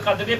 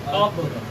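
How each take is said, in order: First: The word ends with an added vowel after the d. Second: The word ends on a strong, stopped consonant cluster. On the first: The speaker calls it wrong. "हम लोग कदरे पढ़ते हैं" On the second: The speaker calls it right. "दाल में मुशद्दद यानी तेज आवाज में"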